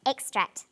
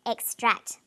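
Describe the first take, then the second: First: "extract" stressed on the first syllable, EX-tract. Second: "extract" stressed on the second syllable, ex-TRACT. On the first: Teacher shows the noun's stress, first-syllable stress on "extract". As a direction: say "extract" slowly with the weight on EX. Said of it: "emphasis is now on the first syllable". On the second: Teacher shows the verb's stress, second-syllable stress on "extract". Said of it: "It's on the second syllable". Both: Shown as a demonstration.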